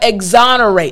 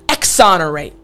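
First: The start sounds like 'eggs', with a voiced g-z. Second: The start sounds like 'ecks', with a voiceless k-s. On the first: The speaker calls it right. "it doesn't sound like an X. Right? We have exonerate" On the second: The speaker calls it wrong. "It's not exonerate"

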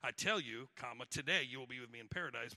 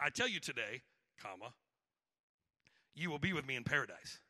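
First: There is a pause before 'today'. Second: There is a pause after 'today'.

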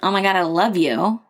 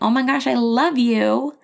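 First: It is said in a harsh, snippy tone. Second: It is said in a sweet, warm tone.

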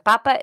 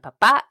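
First: The stress is on the first syllable. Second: The stress is on the last syllable. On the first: It means the Pope. "papa is the Pope" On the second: It means one's father. "papa is your dad"

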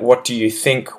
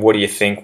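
First: Each word is said separately and fully enunciated. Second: The words run together in a quick, reduced form. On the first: "if I was to really enunciate" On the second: "See how easy that is for me to say?"

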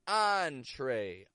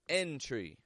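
First: The first vowel is an 'ah' sound. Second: The first vowel is an 'eh' sound. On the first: The speaker calls it right. "one final spelling with the ah sound" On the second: The speaker calls it wrong. "Most non-native English speakers make a regular eh sound with these"

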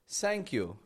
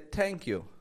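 First: The first sound is close to s. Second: The first sound is close to t. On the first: "Making an S sound" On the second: "it makes a sound close to a T"

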